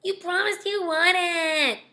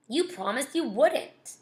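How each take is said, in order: First: Put-on high, drawn-out childish whine; exaggerated whine. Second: Slow, lightly whiny protest; mild whine. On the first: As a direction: whine it slowly, close to tears. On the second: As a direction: complain with a touch of a whine. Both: A narrator's reading. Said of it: "Daniel whined".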